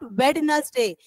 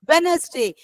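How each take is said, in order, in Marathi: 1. मधला d चा आवाज उच्चारला जातो. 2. मधला d चा आवाज मूक असतो. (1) "It's not Wednesday" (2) "D is just a silent word alphabet"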